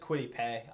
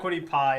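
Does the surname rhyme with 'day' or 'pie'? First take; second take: day; pie. First: The surname ends with an 'ay' vowel. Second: The surname ends with an 'eye' vowel. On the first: The speaker calls it right. "Apparently, it's Quiddy Pay" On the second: The speaker calls it wrong. "it's not Quiddy Pie apparently"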